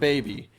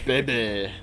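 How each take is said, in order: First: It is said plainly in an ordinary accent. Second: It is said in an exaggerated put-on character accent. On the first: The speaker calls it wrong. "Not baby" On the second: The speaker calls it right. "That is fat bastard's way of saying baby"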